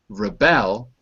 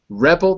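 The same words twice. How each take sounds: First: The stress is on the second syllable. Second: The stress is on the first syllable. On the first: It is the verb. "below. That's the verb" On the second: It is the noun. "the noun, above"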